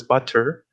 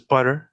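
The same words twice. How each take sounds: First: "butter" with a hard released T, but-ter; true T. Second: "butter" with a tapped T, like budder; flapped T. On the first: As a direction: pronounce a full aspirated T in "butter". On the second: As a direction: flick the T in "butter" like a quick D. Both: Shown as a demonstration. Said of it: "those are two sound".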